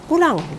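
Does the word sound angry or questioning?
angry. The word is shouted in an angry way. The speaker is annoyed or angry. "sambil dengan teriak, berteriak"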